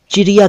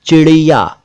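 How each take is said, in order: First: चिड़िया said as chiriya, plain r; wrong r for ड़. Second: चिड़िया with a retroflex flap ड़; correct flap ड़. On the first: Teacher says this is not right, चिड़िया with plain r. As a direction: put र for ड़ in चिड़िया. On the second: Teacher models a word for learners, चिड़िया with flap ड़. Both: Shown as a demonstration. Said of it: "कहना ठीक नहीं है".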